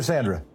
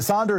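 First: Sandra with the flat "a" of "sand"; Sandra with short a. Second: Sandra with an open "ah" first vowel; Sandra with broad ah. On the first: Host asks caller her name, Sandra said SAN-druh. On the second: Host asks caller her name, Sandra said SAHN-druh. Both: Shown as a demonstration. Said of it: "Is it Sandra or Sandra?".

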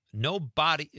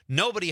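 First: "no body" as two words, full BAH-dee; misspelling read literally. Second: Said in the usual way. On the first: Shown as a demonstration. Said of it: "he spelled it no body". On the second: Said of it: "I didn't say that".

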